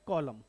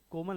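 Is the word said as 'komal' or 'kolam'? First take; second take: kolam; komal. First: It is said like 'kolam', with an open first vowel. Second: It is said like 'komal', with a long middle vowel. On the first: The speaker calls it right. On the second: The speaker calls it wrong. "कोमल नहीं बेटा"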